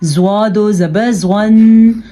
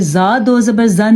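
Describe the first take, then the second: First: The letter is sounded full and heavy. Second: The letter is sounded thin and light. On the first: The speaker calls it right. "हमने इसको पढ़ा है ज़्वा दो ज़बर ज़्वन" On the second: The speaker calls it wrong. "ज़ा दो ज़बर ज़न नहीं पढ़ा"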